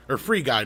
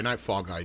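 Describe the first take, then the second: First: Free punched louder, falling; stress on FREE. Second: Said in the usual way. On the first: Real, not acted. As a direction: hit the word Free in correction. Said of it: "I meant Free Guy". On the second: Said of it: "Did I say Fall Guy?".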